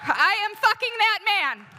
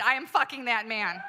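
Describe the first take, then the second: First: Very high, very loud furious scream; yelled threat. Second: Slightly raised, closing yell; yelled, winding down. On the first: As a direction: scream it at full force at the husband. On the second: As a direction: land the last line a bit less fiercely. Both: Retold or imitated. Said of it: "I yelled at him".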